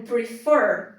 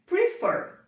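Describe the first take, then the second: First: Said in the usual way. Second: Prefer said high, with the weight on fer; stress on the last syllable. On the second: Shown as a demonstration. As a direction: pitch up and lean on the fer of Prefer. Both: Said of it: "a sílaba tônica do verbo prefer é a última".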